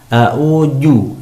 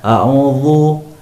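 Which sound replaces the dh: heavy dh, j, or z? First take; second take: j; heavy dh. First: The dh sound is replaced by a j. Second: The dh sound is made thick and heavy. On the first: "huruf dzal diganti dengan huruf jim" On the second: "huruf dzal ini ditebalkan"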